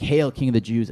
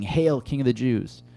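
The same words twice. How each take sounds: First: Mocking hail. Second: Mock hail. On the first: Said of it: "this is incredibly mocking". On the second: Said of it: "they finish it off by saying".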